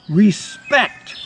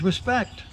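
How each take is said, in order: First: It is said dramatically and confidently. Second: It is said with a little less confidence.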